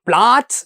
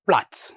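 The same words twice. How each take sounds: First: The vowel is said long. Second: The vowel is said short. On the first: The speaker calls it wrong. "പ്ലാറ്റ്സ് എന്ന് പറയില്ല" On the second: The speaker calls it right. "Short ആയിട്ട് ഉച്ചരിക്കണം"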